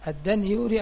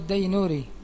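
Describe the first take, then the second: First: The n sound comes before the y sound. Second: The y sound comes before the n sound. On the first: The speaker calls it wrong. "تأتي بالنون قبل الياء" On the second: The speaker calls it right. "أو بالياء قبل النون"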